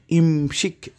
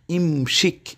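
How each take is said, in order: The two takes are said the same way.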